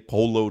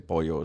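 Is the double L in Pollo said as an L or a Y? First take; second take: L; Y. First: The double L is said as an L sound. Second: The double L is said as a Y sound. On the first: The speaker calls it wrong. "you never hear me say Polo Tropical" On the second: The speaker calls it right. "I always say Pollo"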